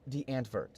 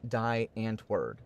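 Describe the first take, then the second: First: The name is said with Afrikaans sounds. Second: The name is said with English-style sounds. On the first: The speaker calls it right. "Being an Afrikaans word, it is pronounced" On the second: The speaker calls it wrong. "if pronounced as spelt by an English person"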